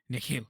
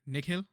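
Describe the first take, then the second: First: The middle consonant is harsh and throaty. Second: The middle consonant is soft and light. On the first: The speaker calls it wrong. "Put too much emphasis on the H and like the ch" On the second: The speaker calls it right. "it's it's Nikhil"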